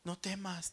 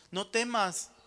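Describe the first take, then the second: First: Quiet, gentle "No temas"; soft repetition. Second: Firm, loud NO TEMAS; louder proclamation. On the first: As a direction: say "No temas" softly, almost hushed. ("No temas" dicho en voz baja y suave) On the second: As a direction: declare "No temas" loudly, full voice. ("No temas" dicho con fuerza, en voz alta) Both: Shown as a demonstration. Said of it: "te dice el Señor".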